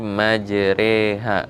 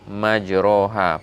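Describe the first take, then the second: First: The vowel after r is tilted toward 'e'. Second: The vowel after r is an open 'a'. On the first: The speaker calls it right. "bacaannya itu antara fathah dan kasroh. Itu adalah imalah" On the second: The speaker calls it wrong. "bukan majroha"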